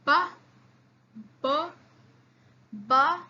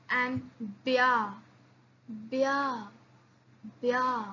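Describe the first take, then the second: First: Ba with a firm hard b. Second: Bia with a soft palatal b. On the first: Teacher drills hard ba. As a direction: press out ba. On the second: Teacher drills soft bia. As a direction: glide softly into bia. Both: Shown as a demonstration. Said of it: "You see the difference".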